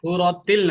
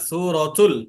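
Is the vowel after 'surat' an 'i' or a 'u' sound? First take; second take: i; u. First: The vowel after 'surat' is an 'i' sound. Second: The vowel after 'surat' is a 'u' sound. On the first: The speaker calls it wrong. "সূরাতিল না" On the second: The speaker calls it right.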